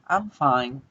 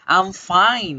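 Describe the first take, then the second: First: It is said flatly, with low unenthusiastic pitch. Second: It is said excitedly, with a higher pitch. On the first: Something is wrong and the person is not really fine. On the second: The person really is fine.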